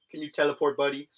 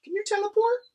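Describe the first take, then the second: First: Said in the usual way. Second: Very high, sing-song question to the pet. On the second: Real, not acted. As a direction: coo it up high like to a puppy. Baby talk to pet.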